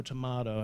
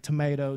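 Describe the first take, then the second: First: Tomato as tuh-MAH-doe, soft d; tomato with broad a. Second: Tomato as tuh-MAY-toe; tomato with long a. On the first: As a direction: say tomato with an ah sound. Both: Shown as a demonstration. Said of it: "It's like tomato, tomato".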